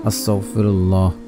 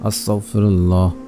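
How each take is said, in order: The two takes are said the same way.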